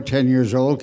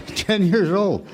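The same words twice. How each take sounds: First: Said in the usual way. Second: Slow, laughing repeat, pitched up; amused disbelief. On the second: Real, not acted. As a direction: savor the absurdity with a chuckle.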